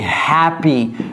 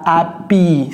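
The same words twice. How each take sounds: First: The initial H is clearly sounded. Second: The initial H is dropped. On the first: The speaker calls it right. "c'est happy. Prononcez-moi le H" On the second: The speaker calls it wrong. "ce n'est pas happy"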